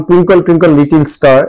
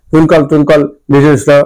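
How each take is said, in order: First: Said in the usual way. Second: টুইঙ্কল টুইঙ্কল লিটল স্টার slurred, with consonants lost; unclear pronunciation. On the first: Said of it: "rhymes গুলো স্পষ্ট উচ্চারণ করে তা নয়". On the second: Retold or imitated. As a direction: imitate a child garbling লিটল স্টার into indistinct syllables. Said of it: "পরিষ্কার উচ্চারণ করে না".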